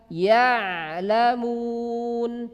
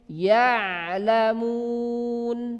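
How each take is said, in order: The two takes are said the same way.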